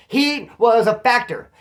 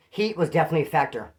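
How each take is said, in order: First: "Heat was a factor" said slowly, louder and higher, every word weighted; hammering the point home, slow and loud; slow emphatic restatement. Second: Said in the usual way. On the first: Real, not acted. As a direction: lean hard on "Heat was a factor", drawing it out.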